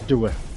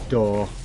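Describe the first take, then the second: First: The vowel is a two-part Yorkshire 'oo-uh' sound. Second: The vowel is a plain standard 'or' sound. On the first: "anybody watching in Yorkshire" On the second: "we don't say door"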